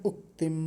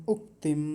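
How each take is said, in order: Both takes have the same delivery.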